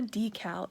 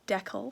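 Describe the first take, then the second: First: Decal is said in a non-Canadian way. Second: Decal is said the Canadian way. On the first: The speaker calls it wrong. "It's not a decal" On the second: The speaker calls it right. "it's a decal"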